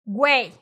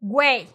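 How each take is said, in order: First: A w sound follows the g. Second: The same.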